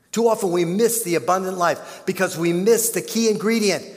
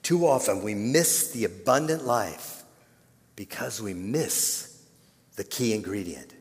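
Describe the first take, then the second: First: Higher and louder restatement; Too often we miss the abundant life said again, higher and louder; louder repeat. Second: Said in the usual way. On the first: Shown as a demonstration. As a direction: drive the line home the second time. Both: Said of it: "repeated louder".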